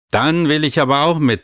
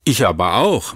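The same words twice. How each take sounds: First: Put-on a child insisting not to be left out; insistent. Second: Said in the usual way. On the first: A narrator's reading. Maral insists on coming.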